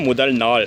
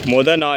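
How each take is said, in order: First: Both words are said in full, with final sounds. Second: Both words are clipped, dropping final sounds. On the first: The speaker calls it right. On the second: The speaker calls it wrong.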